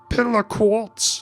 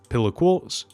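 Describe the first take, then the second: First: It is said in a put-on character voice. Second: It is said in a plain natural voice.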